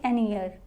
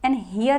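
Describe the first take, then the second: First: The second word begins with a vowel sound. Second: The second word begins with an h sound. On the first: The speaker calls it right. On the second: The speaker calls it wrong.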